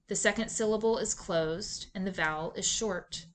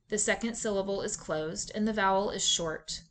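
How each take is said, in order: Both takes have the same delivery.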